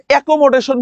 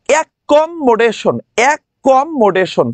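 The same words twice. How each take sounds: First: Said in the usual way. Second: Slow "অ্যাকোমোডেশন" with "ক্ক" and "ম্ম" held; careful doubled consonants. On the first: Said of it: "আমি কখনো এটাকে অ্যাকোমোডেশন বলি না". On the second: Shown as a demonstration. Teacher showing how to say it while spelling. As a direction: lean on the double c and double m. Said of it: "আমি এটা উচ্চারণ করার সময় বলি".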